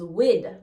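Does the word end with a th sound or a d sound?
d. It ends with a d sound.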